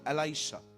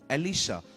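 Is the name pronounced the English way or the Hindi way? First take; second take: English; Hindi. First: The name is said as E-lai-sha, English style. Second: The name is said as E-li-sha, Hindi style. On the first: "in English call एलाइशा" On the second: "जिसका नाम था एलिशा"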